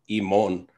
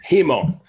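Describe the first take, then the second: First: The word begins directly with a vowel. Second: The word begins with a breathy h sound. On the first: The speaker calls it wrong. "he's wrong in the pronunciation of the accusative imon" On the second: The speaker calls it right. "it's himon with an aspirated sound"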